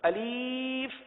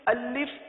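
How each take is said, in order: First: The middle vowel is a long i sound. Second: The middle vowel is a short i sound. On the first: The speaker calls it wrong. "अब इस तरह की गलतियां होती हैं" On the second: The speaker calls it right. "तो अलिफ को इस तरह पढ़ेंगे"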